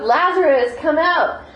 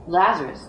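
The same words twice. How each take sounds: First: High, loud call of a name; showing how loud the call was; loud shout. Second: Personal call. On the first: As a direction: shout the name out across the tomb. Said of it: "shouting, saying it really loud". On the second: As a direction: say it as if to one friend. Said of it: "very personal". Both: Shown as a demonstration.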